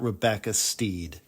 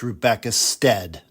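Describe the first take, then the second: First: The surname has a long 'ee' vowel. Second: The surname has a short 'eh' vowel. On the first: The speaker calls it wrong. "not Rebecca Steed" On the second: The speaker calls it right. "It's Rebecca Stead"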